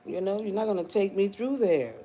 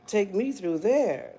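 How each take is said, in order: First: Said in the usual way. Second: Slow, drawn out. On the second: Shown as a demonstration. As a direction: Take me through there, slow and deliberate. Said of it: "repeat slowly".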